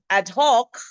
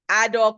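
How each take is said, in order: First: The h sound at the start of 'hoc' is pronounced. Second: The h sound at the start of 'hoc' is dropped. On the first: The speaker calls it right. "It is ad hoc" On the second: The speaker calls it wrong. "Some of us don't even put the glottal"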